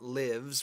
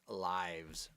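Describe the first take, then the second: First: It is pronounced as the verb form. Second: It is pronounced as the plural noun. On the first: It is the verb, as in he lives in London. The speaker calls it wrong. "It's not lives, which is the verb" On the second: It is the plural of life. The speaker calls it right. "the noun is lives"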